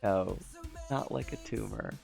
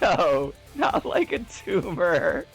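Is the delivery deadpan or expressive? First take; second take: deadpan; expressive. First: It is said in a flat, deadpan voice. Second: It is said with ordinary expression.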